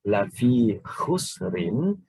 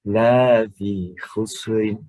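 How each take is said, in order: First: The vowel in the first word is short. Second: The vowel in the first word is long. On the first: Truly in loss. The speaker calls it right. "kita baca pendek" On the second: Not in loss. The speaker calls it wrong. "dibaca dengan dipanjangkan"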